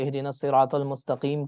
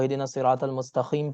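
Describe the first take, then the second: First: Mustaqim is said with a deep back q sound. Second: Mustaqim is said with a raspy kh sound.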